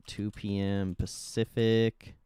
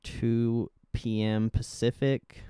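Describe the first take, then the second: No difference in how they are said.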